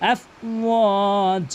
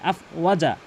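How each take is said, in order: First: The 'wa' vowel is drawn out long. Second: The 'wa' vowel is short. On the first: The speaker calls it right. "ওয়া অবশ্যই কিন্তু এক আলিফ টেনে পড়তে হবে" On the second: The speaker calls it wrong. "অধিকাংশ লোক আফ ওয়াজা বলে"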